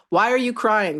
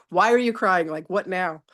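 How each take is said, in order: First: Higher and louder, a light imitation of the teacher; teacher's question. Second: Teacher's question. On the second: Retold or imitated. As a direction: lightly voice the teacher asking. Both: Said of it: "That's all he ever says".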